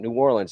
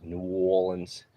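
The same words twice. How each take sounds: First: Said in the usual way. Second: Slow, rounded New Orleans accent. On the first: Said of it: "they sound very similar". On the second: Shown as a demonstration. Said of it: "a more of a round".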